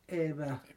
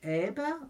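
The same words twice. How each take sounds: First: The middle consonant is a W sound. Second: The middle consonant is a B sound. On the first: "oder mit W?" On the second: "Sagen Sie es mit B"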